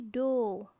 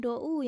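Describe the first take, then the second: First: The vowel is a single long o. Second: The vowel glides from o to u. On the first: The speaker calls it right. "do panjang" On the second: The speaker calls it wrong. "Do bukan dibaca dou ya"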